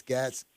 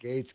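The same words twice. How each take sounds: First: GATZ with a short a; mistaken pronunciation. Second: GATES with a long ay; corrected pronunciation. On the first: Host trying out his own version of the name, "Gatz" with short a. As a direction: say "Gatz" to rhyme with cats. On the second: Host repeating caller's correction, "Gates" with long ay. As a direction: echo "Gates" with the vowel of dates. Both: Shown as a demonstration. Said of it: "Is that how you say it".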